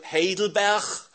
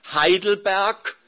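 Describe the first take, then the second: First: The name is pronounced the Dutch way. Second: The name is pronounced the German way. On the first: "af Nederlands" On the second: "moet ik de catechismus Heidelberg Duits uitspreken?"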